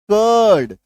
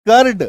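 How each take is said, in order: First: कर्ड with long vowel and no R, "kuhd"; silent R. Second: कर्ड short and loud with R sounded, "kard"; wrong full R. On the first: Teacher showing the right way, कर्ड with silent R. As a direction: say कर्ड leaving out the R. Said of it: "सही". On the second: Teacher showing the wrong way, कर्ड with full R. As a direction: punch a hard R into कर्ड. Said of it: "गलत". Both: Shown as a demonstration.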